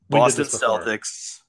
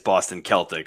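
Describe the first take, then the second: First: Celtics begins with a soft S sound. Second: Celtics begins with a hard K sound. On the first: The speaker calls it wrong. "So Boston Celtics" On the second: The speaker calls it right. "if it was pronounced right"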